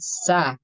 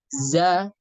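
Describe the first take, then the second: First: The consonant is a breathy voiceless s sound. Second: The consonant is a buzzing voiced z sound. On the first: The speaker calls it wrong. "sa dibaca tercampur huruf sin" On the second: The speaker calls it right. "za bukan bukan sa"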